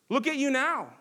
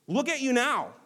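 First: Higher, loud jeer "Look at you now"; mocking shout. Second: Raised, higher taunting read of the crowd. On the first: Preacher as a bystander jeering Jesus on the cross, loud mock. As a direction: spit the jeer at him. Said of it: "shouting and mocking Jesus on the cross". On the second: A narrator's reading. Preacher reading the passersby jeering at Jesus, raised taunt. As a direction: throw the crowd's jeer at him. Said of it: "they yelled at him".

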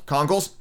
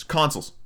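First: "Consoles" said with a k sound in the middle, like conkles, questioning; mispronounced consoles. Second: Said in the usual way. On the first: Real, not acted. Correcting his own slip about Switch consoles, mispronounced questioningly. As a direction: query "Consoles" with a hard k replacing the s. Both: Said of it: "It's consoles".

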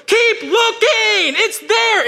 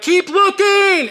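First: High, slow, loud insistence; mock shout. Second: High, slow, drawn-out brush-off; imitating the host. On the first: Host shouting down to the starving man, high and slow. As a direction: bellow it slowly and high, unbudging. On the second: Host to the starving man, slow mock-patient and high. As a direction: dangle it slowly, much higher, like a smug host.

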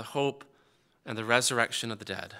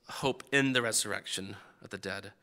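First: Said in the usual way. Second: "in" made the prominent word, softly; quiet, low reading with emphasis on "in"; stress on IN. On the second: Shown as a demonstration. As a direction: lean gently on "in" to mark the changed word. Alternative translation contrasted by one word.

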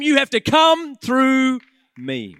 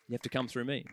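First: You have to come through me, loud and slow; booming pulpit declaration; loud proclamation. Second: You have to come through me, much softer and lower; soft restatement; quiet echo. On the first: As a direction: declare it as Jesus defending them. Jesus quoted at preaching climax. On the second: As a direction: let it land gently after the shout. Quiet echo after climax. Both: Acted.

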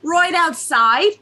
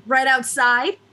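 First: RIGHT as "roight", stretched and louder in Jersey; exaggerated Jersey accent. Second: Said in the usual way. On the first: Shown as a demonstration. Host redoing the phrase for friends, broad Jersey accent. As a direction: hammer "Right outside" in broad, slow Jersey. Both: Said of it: "exactly what kind of Jersey accent".

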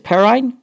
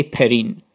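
First: Perrine ending like RINE, pitched up as a question; other pronunciation. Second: Perrine ending in a long EEN; own pronunciation. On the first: Co-host trying the commentator's version of a name, questioning pronunciation. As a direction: say Perrine to rhyme with nine, unsure. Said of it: "says his name different from how I would". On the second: Co-host giving his own way of saying a player's name, own pronunciation. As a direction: say Perrine to rhyme with keen. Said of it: "So I would say Perrine". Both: Shown as a demonstration.

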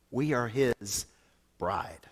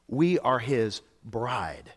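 First: We are his bride with bride a hush; bride whispered. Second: We are his bride, slow and deliberate, voiced; slow emphatic repeat. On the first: Pastor telling the church what they are, bride whispered. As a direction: drop to a whisper on bride, lower and softer. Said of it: "pastor softens the key word". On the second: Pastor repeating to the church, slow and deliberate. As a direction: spell it out word by word, slowly. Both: Shown as a demonstration.

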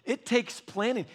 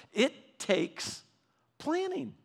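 First: Said in the usual way. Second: Planning lifted much higher, then falling; stress on planning. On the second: Shown as a demonstration. Preacher to congregation, repeating with lifted planning. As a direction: land hard on planning after a pause.

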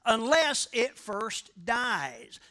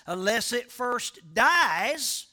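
First: Said in the usual way. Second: "Unless it first dies" slow, each word weighted, rising on "dies"; stressed reading. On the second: Shown as a demonstration. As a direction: dwell on "Unless it first dies", lift at the end. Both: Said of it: "Let me read it like this".

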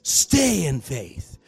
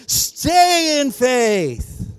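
First: Said in the usual way. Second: Very slow, high, loud exhortation; more passion. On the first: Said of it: "Say it with some passion". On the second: Shown as a demonstration. Preacher pushing congregation to do better, at full passion. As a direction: stretch STAY out long and high, full of fervor. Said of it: "Come on, you can do better".

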